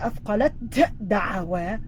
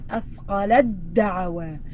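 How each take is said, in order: First: The t is pronounced separately before the d. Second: The t is dropped and merged into the d. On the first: The speaker calls it wrong. "instead of saying أثقلت دعوة, nope" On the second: The speaker calls it right. "take out the ta and you're going to pressure that da"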